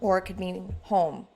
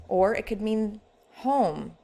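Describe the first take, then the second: First: Wistful, for the homeless. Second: "home" drawn out slow with a fond falling tune; "home" stretched and tender, a homecoming; warm, like coming home. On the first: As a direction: say "home" as if you have none. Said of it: "something completely different to those without one". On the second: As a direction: say "home" slowly, glad to be back. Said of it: "like coming home". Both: Shown as a demonstration.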